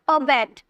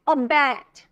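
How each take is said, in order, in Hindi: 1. दूसरा अक्षर बलाघात वाला नहीं है। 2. बलाघात दूसरे अक्षर पर है। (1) "ऐसे नहीं बोलेगा" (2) "बैट को क्या करें, जोड़ दे रहे हैं ना, स्ट्रेस दे रहे हैं"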